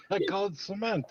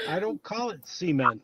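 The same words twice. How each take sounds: First: Cement as suh-MENT, said softer; short "suh" in cement, weight on the end; own pronunciation. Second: Cement as SEE-ment, stress up front; rejected pronunciation. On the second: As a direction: give cement the long "see" you disown. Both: Shown as a demonstration.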